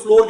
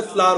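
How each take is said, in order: First: फ्लोर, the common variant of flour that rhymes with "door"; flour said as "floor". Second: Correcting "floor" to फ्लावर, with long "aa" in place of "o"; फ्लावर as English flour, open vowel, not rounded; flour pronounced "flaar". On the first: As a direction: say फ्लोर with a rounded "o" vowel. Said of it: "कई लोग फ्लोर कह देते हैं". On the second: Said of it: "वैसे फ्लावर होता है". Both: Shown as a demonstration.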